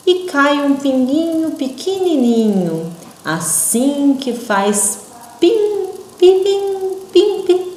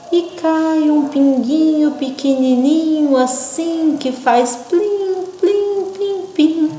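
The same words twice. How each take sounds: First: High, slow pim, pim dropping away; slow falling drops. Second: High, slow plim, plim, plim falling; slow falling drops. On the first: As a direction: let each pim fall like a tiny drop. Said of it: "bem devagarinho e caindo". (pim pim devagarinho, caindo) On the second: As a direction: let each plim drip down slowly. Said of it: "pra vocês lerem bem devagarinho e caindo". (plim bem devagarinho e caindo) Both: Shown as a demonstration.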